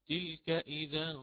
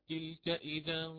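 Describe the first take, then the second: No difference in how they are said.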